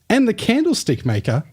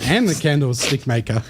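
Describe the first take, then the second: First: It is said in an overly animated, storybook way. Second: It is said in a casual, conversational way.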